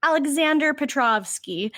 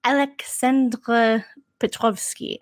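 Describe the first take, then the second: First: "Alexander Petrovsky" with flat American vowels; American pronunciation. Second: Russian pronunciation. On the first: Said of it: "She's being extra American". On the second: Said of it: "he's like". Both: Retold or imitated.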